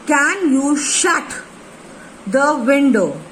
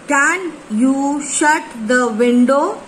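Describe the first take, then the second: First: "shut" and "window" pushed out, slowly; slow repeat, leaning on "shut" and "window"; stress on shut and window. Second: Can you "shut" the "window?" said slowly, leaning on shut and window; stress on shut and window. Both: Shown as a demonstration. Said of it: "shut, yes, window".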